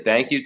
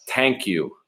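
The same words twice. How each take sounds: First: Said in the usual way. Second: "Thank" said with a hard T, like "tank"; grandmother's accented pronunciation. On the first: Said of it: "She'll say, "Thank you" to me". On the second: Shown as a demonstration. Showing how grandmother's accent spells it, "Thank" becomes "tank". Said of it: "the way it comes out in the text is how she sound".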